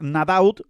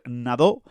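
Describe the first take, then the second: First: The name is read with Spanish sounds, final t. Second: The name is read with French sounds, silent ending. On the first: "en español es Nadaut" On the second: "pero yo entiendo que es Nadó"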